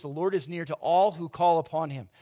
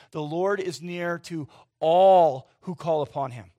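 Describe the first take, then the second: First: Said in the usual way. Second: Slow, louder, leaning hard on all; stress on all. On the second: Shown as a demonstration. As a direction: drive home the word all, slow and loud. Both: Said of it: "Let that sink in for a minute".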